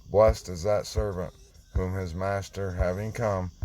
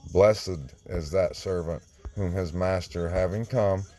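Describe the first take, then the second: Both takes have the same delivery.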